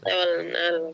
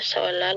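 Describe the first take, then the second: First: The middle is pronounced with an N sound. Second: The middle is pronounced as a double L. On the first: The speaker calls it wrong. "bukan solnal" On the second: The speaker calls it right. "bacanya solal"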